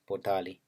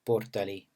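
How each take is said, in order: First: The stress is on the second syllable. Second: The stress is on the first syllable. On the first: "medially stressed word" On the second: "an initially stressed word"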